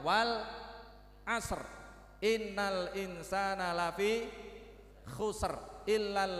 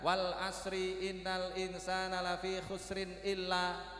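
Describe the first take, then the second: First: Verse endings are cut short with a stop. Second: Verse endings are voiced and run straight on. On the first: The speaker calls it right. "yang paling tepat mengajarkannya ... bis R semua belakangnya" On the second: The speaker calls it wrong. "Mengajarkannya gimana? ... gitu"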